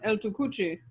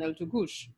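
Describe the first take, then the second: First: The final ch sounds as in Spanish. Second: The ending follows French Creole pronunciation. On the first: "would have been the Spanish pronunciations" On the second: "the French and Patois speakers gave us"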